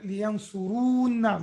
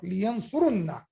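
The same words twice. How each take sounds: First: Liyansurunna with a long "uu" before the n; drawn-out vowel. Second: Liyansurunna with a short u and held "nn"; short vowel, doubled n. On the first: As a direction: say liyansurunna with "run" lengthened to "ruun". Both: Shown as a demonstration. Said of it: "Not li-, liyansurunna".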